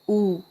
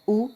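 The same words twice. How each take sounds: First: The vowel is drawn out long with emphasis. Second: The vowel is said briefly and plainly. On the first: "आप मेरे को emphasis करना पड़ रहा है, थोड़ा सा जोर डालना पड़ेगा मुझे।" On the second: "अगर मैं नॉर्मली कहूँगी"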